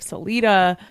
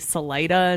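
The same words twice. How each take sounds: First: It is said the non-Colorado way. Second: It is said the Colorado way.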